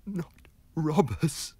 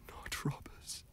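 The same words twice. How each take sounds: First: Higher, slow frightened voice; terrified gasp. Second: Whispered, breathless denial; gasped terror. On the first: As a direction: plead it out in panic. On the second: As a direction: gasp it out in terror. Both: Acted. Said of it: "gasped the terrified man".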